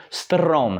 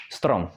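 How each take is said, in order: First: Strom with the trilled R drawn out; pulled R. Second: Said in the usual way. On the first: Shown as a demonstration. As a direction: drag out the R in strom. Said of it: "pulling that R just to get that practice". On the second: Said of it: "in Czech, it's just strom".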